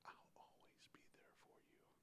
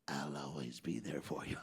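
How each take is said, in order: First: It is whispered softly. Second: It is said in a scary voice.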